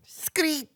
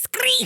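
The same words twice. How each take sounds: First: High, small squeaky screech; favorite screech noise. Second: Very high, full-voiced screech; favorite screech noise. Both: Shown as a demonstration. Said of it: "that's my favorite noise".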